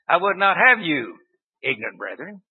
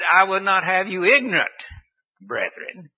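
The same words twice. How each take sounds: First: There is a pause after "you". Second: There is a pause after "ignorant".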